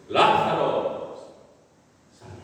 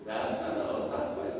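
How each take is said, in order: First: It is said in a powerful, loud voice. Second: It is said in a weak, soft voice.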